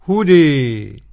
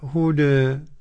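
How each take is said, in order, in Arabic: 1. الحركة الأخيرة تُمال بقوة نحو 'ee'. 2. الحركة الأخيرة تُمال قليلا نحو 'e'. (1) "بالإمالة الكبرى الإمام حمزة" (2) "والتقليل ورش"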